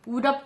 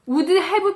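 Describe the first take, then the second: First: The word 'have' is reduced and blended in. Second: Both words are pronounced fully and separately. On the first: The speaker calls it right. "거의 would have 정도가 됩니다" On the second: The speaker calls it wrong. "would have pp라고 하면 너무 힘들어요"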